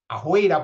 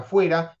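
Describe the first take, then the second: First: The middle consonant is a throaty velar sound. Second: The middle consonant is a lip f sound.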